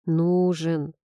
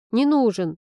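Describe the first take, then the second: First: Mild, settled disagreement; calm contradiction. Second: Slightly tearful, stubborn grumble; grumbled denial. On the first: Friend insists he is needed, calm contradiction. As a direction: contradict it evenly. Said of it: "возразила она". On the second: Heroine denies needing Nikita, stubborn grumble. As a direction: grumble it with a lump rising. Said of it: "проворчала я". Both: A narrator's reading.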